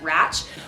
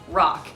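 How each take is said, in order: First: The word ends with a tch sound. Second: The word ends with a k sound. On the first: The speaker calls it wrong. "mispronounce R A C H or the Rally Championship as Ratch" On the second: The speaker calls it right. "it's pronounced rock"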